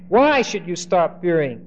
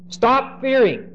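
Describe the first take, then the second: First: Said in the usual way. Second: Slow, high "Stop fearing" said firmly; commanding. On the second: Shown as a demonstration. Joseph orders his brothers, slow and high.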